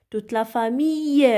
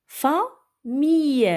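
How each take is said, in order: First: Said in the usual way. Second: "famille" stretched slowly with a clear final -ille. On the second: Shown as a demonstration. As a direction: draw out "famille", landing on the y sound. ("famille" lent et bien articulé) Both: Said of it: "ça se prononce I".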